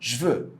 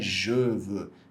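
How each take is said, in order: First: The vowel of 'je' is dropped and merged. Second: The vowel of 'je' is fully pronounced. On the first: This is how it sounds in everyday speech. The speaker calls it right. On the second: This is the form written in grammar books. The speaker calls it wrong.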